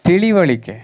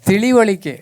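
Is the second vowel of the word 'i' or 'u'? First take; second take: i; i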